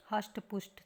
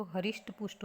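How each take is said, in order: First: हष्ट पुष्ट said as "hasht pusht"; common mispronunciation. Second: हरिष्ट पुष्ट said as "harisht pusht"; sounded "ri" in हरिष्ट; correct pronunciation. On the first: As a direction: misread हष्ट as one syllable, hasht. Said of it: "सभी बोलते हैं ना". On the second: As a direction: say हरिष्ट as ha-risht. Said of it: "लेकिन शुद्ध रूप क्या है". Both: Shown as a demonstration.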